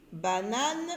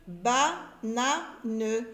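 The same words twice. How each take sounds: First: Said in the usual way. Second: Banane broken slowly into ba-na-ne, final ne sounded; syllable by syllable. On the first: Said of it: "mais je n'entends pas en". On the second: Shown as a demonstration. Teacher sounding out banane for beginning readers, syllable by syllable. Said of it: "Quand vous voyez ici".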